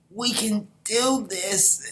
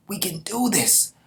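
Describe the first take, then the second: First: Even higher, very slow, stretched out; drawn-out rallying cry. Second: High, loud pep-up for the troops; rallying cry. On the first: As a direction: hold each word long to steady the men. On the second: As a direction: lift the men with it. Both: Acted. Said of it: "And he's like".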